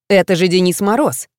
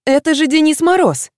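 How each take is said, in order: First: Said in the usual way. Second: Exclaiming. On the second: A narrator's reading. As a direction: burst out in delight at Мороз. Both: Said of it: "снова воскликнула Юлька".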